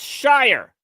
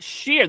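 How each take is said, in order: First: The syllable is said with an 'eye' vowel. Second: The syllable is said with an 'ear' vowel. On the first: The speaker calls it right. "That's shire. Like a hobbit" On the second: The speaker calls it wrong. "That's not sheer"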